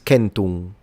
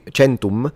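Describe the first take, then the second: First: The word begins with a hard k sound. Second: The word does not begin with a k sound. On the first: This is the ancient Roman pronunciation. "in classical Latin is centum" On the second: This is the Italian-style church pronunciation. "because it's an Italianate pronunciation"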